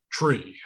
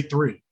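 First: TREE with T in place of TH; TREE for three. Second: THREE begun with a clear TH. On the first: Child failing to repeat three, TREE with hard T. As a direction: swap the TH for a T, TREE. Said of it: "it'd be like that". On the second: Prompting a child in speech practice, THREE with clear TH. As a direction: say THREE with tongue between the teeth. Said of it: "'cause I wasn't hearing them properly". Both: Shown as a demonstration.

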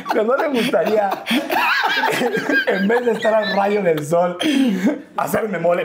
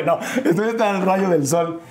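First: Laughing. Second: Said in the usual way. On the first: Real, not acted. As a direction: giggle while you say it. Laughing at the mole joke. (riendo de verdad mientras habla)

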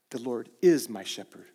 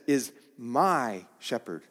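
First: "is" held and pressed down; stress on is. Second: Slow, with "my" leaned on; slow emphasis on "my"; stress on my. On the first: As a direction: stress "is" in "The Lord is my shepherd". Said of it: "And it's also, he says, is my shepherd". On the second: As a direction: make "my" the key word, slowly. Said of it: "he says". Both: Shown as a demonstration.

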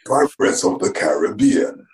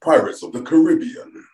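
First: Caribbean as karr-uh-BEE-un, slowly; slow the title down, Caribbean stressed on BEE; stress on third syllable. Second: Caribbean as kuh-RIB-ee-un, pitched higher; stress on second syllable. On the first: Guest trying the corrected title, slow Caribbean with stressed BEE. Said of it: "Yeah, exactly". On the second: Guest testing the film title, Caribbean with stressed RIB. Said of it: "That still works". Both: Shown as a demonstration.

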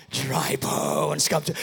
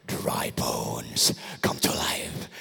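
First: Said in the usual way. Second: Whisper. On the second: Shown as a demonstration. Telling the problem what daddy said, whispered. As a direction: breathe it gently over the bones. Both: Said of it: "Tell that situation".

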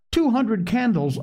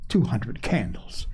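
First: Put-on high-pitched childlike marvelling; wonderstruck. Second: Low, understated disbelief; dismissive. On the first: Little girl marvels at imagined candles. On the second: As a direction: mildly scoff at the very idea. Mother scoffs at the candle idea. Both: A narrator's reading.

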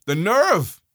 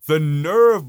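First: Said in the usual way. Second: Louder, indignant "nerve"; outraged repeat, louder; disgusted emphasis. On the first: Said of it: "repeat, louder second". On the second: Real, not acted. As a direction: spit the word out in contempt. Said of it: "louder disgusted repeat".

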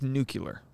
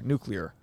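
First: Nuclear said as nu-cu-lar, noo-kyuh-ler; nuclear with the k-y-uh middle, Bush style; George Bush pronunciation. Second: Nuclear said noo-klee-er, copying the correction; Nuclear carefully as noo-klee-er; trying it right. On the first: Real, not acted. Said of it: "You sound like George Bush". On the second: Shown as a demonstration.

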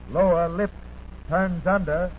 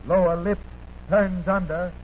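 The two takes are said the same way.

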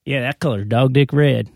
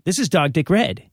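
First: Light Southern drawl, louder. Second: Said in the usual way. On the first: Shown as a demonstration. Showing friends the right way, Southern drawl. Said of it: "You have the drawl". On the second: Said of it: "You don't say".

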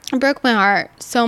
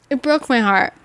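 First: It broke my heart so much, slower with weight on broke; slower emphasis. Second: Said in the usual way. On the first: Real, not acted. Repeating her hurt to listeners, slow stressed broke. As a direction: lean on broke, dwell slowly on the phrase. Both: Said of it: "It broke my heart so much".

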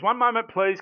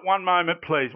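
First: Catchphrase, playful. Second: Catchphrase, sing-song. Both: Shown as a demonstration. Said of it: "I love this".

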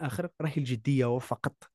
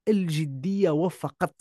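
First: Said in the usual way. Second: الجدية وفقط drawn out slowly, rising on الجدية; slow stressed repeat. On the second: Shown as a demonstration. To the listener, hammering home الجدية وفقط slowly with a rise. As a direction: lean on الجدية and let وفقط land.

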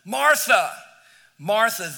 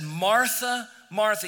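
First: Louder, higher call to cut through her tizzy; raised attention-getting call. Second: Gentle, firm calling of her name; tender address to an upset Martha; loving but clear. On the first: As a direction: call her name to stop her short. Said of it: "said her name twice just to get her attention". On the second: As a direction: call her back kindly but clearly. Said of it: "very lovingly but clearly said". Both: Acted.

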